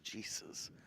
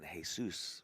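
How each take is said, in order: First: The word starts with a clear J sound. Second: The word starts without a J sound. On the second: "the J is silent in"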